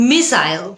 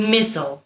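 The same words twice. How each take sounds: First: "মিসাইল" as MISS-ile; British pronunciation. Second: "মিসল" as MISS-ul; American pronunciation. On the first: Teacher asks learners which is right, "মিসাইল" as British MISS-ile. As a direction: end "মিসাইল" with a clear EYE-l. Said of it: "British উচ্চারণ". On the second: Teacher gives learners the alternative, "মিসল" as American MISS-ul. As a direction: swallow the second vowel of "মিসল". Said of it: "American". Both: Shown as a demonstration.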